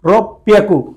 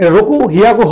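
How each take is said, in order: First: The second part starts with a doubled p sound. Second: The second part starts with an h sound. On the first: The speaker calls it right. "এটা বলতে হবে রক পিয়াকু" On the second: The speaker calls it wrong. "রকু হিয়াকু হওয়ার কথা ছিল"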